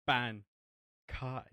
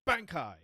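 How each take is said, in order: First: It is said with a Japanese-style pronunciation. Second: It is said with an English-style pronunciation. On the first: This is how the original Japanese actor says it. The speaker calls it right. "the Japanese voice actor of for Ichigo is like, no, it's Bankai" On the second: This is how the English dub actor has always said it. The speaker calls it wrong. "his pronunciation has always been Bankai"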